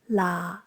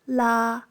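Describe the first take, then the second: First: The pitch stays low and level. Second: The pitch stays level in the middle. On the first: "Low-pitched stays at the same pitch"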